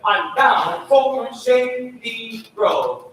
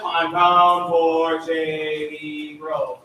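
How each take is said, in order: First: Slow, detached words; separated notes. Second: Slow, joined-up phrase; connected line. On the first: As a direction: sing each word apart. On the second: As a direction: connect them all. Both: Shown as a demonstration. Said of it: "Can you go the opposite?".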